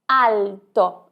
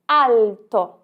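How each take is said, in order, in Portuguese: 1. O L é um 'l' claro, com a ponta da língua. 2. O L é um 'l' claro, com a ponta da língua.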